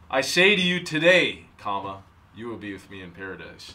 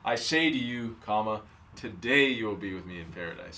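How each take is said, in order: First: The pause comes after the word 'today'. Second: The pause comes before the word 'today'. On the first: The statement is made today; being in paradise is not said to be today. The speaker calls it right. "the argument for that one is that the comma is in the wrong place" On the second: Being in paradise happens today. The speaker calls it wrong.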